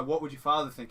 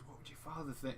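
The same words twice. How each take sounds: First: Said in the usual way. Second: Imitating the teacher, much softer, almost a whisper. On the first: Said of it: "I couldn't whisper that". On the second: Retelling the Disturbia scene, the teacher softly taunting the student. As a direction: lean in and say it under the breath. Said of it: "He whispers that".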